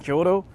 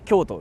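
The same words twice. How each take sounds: First: It is said with an English-style pronunciation. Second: It is said with a Japanese pronunciation. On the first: The speaker calls it wrong. "I freaking sounded like I was not Japanese" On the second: The speaker calls it right.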